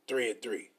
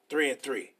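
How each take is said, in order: Both takes have the same delivery.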